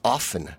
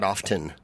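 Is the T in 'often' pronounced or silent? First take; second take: silent; pronounced. First: The T sound is silent. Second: The T sound is pronounced. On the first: The speaker calls it right. "It's often, The T's not pronounced" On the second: The speaker calls it wrong. "not often"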